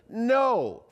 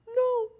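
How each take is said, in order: First: It is said strongly with enthusiasm. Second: It is said weakly in a high squeaky voice.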